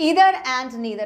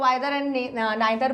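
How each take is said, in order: First: The first vowel sounds like 'ee'. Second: The first vowel sounds like 'eye'. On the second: "इसको आइदर and नाइदर भी बोलते हैं"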